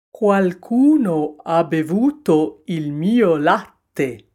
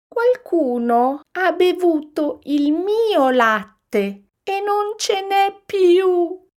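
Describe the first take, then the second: First: Slow, loud indignant bear; papa bear exclaiming. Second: Put-on very high, slow, loud baby-bear wail; little bear sobbing. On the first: Papa bear finding his milk drunk, exclaiming. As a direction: boom it out slowly as the big bear. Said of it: "esclamò papà orso". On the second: Little bear finding his milk all gone, wailing. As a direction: wail it like a tiny upset cub. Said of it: "singhiozzò piccolo orso". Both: A narrator's reading.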